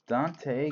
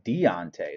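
First: The name is said with two syllables. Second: The name is said with three syllables. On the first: The speaker calls it wrong. "not Dante" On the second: The speaker calls it right. "I'm sorry, Deontay"

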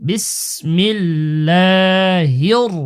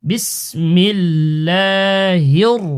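No difference in how they are said.

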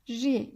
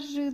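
First: The syllable is said thin with a front vowel. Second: The syllable is said thick with a back vowel. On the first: The speaker calls it right. "ince bir esri olduğu zaman altta olunca ince okuyoruz" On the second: The speaker calls it wrong. "bunu asla rı demiyoruz"

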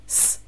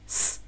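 Both takes have the same delivery.

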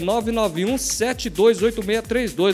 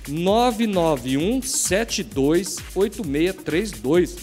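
First: The number is said at normal speed. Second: The number is said very slowly.

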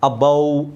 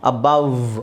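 First: The word is said without a final v sound. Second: The word is said with a final v sound. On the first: The speaker calls it wrong. "ಅಬೌವ್ ಅಲ್ಲ" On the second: The speaker calls it right. "ವಕಾರ ಬರಬೇಕು"

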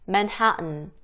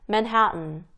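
The two takes are said the same way.

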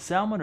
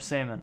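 First: The L sound is pronounced in the word. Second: The L sound is silent in the word. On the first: "Do we say the L" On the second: "or no?"

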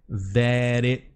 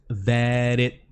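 No difference in how they are said.

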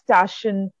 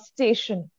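First: The word is pronounced with mother-tongue sound changes. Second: The word is pronounced clearly and standardly. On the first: The speaker calls it wrong. "where you have the mother tongue interference" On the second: The speaker calls it right. "You're clear with the pronunciation"

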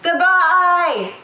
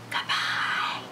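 First: It is said very loudly. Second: It is said very quietly.

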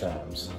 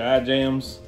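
First: The word is said without a 'j' sound in the middle. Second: The word is said with a 'j' sound in the middle. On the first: The speaker calls it right. "It's Ims" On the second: The speaker calls it wrong.

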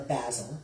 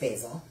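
First: The word is said in a British pronunciation. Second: The word is said in an American pronunciation.

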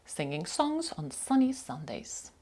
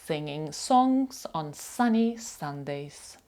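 First: The sentence is said at a faster pace. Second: The sentence is said at a slower pace.

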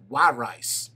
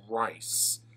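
First: The name sounds like the words 'why rice'. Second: The name does not sound like 'why rice'. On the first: The speaker calls it right. "Like, why would you eat rice? ... just why rice?" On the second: The speaker calls it wrong. "I said that wrong"

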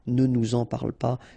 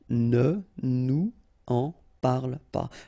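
First: Nous links to en with a z sound. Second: Nous and en are said separately, without liaison. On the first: "should be the way you should pronounce them" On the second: "I tend to not to make the liaison when I make these little examples"

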